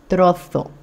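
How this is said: The z is pronounced as in Spain. "il est espagnol, donc il va prononcer le Z différemment"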